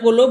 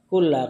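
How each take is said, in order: First: The word ends with an 'u' vowel. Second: The word ends with an 'a' vowel. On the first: The word begins a new sentence as its subject. "Boleh antum baca kullu" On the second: The word is joined to the previous clause. "boleh antum baca kulla"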